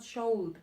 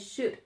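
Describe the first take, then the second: First: The L sound is pronounced in the word. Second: The L sound is silent in the word. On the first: The speaker calls it wrong. "The pronunciation is not should" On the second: The speaker calls it right. "The L is silent, so you must say I should"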